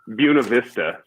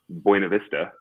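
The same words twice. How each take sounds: First: The name is said the local Colorado way. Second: The name is said the standard way.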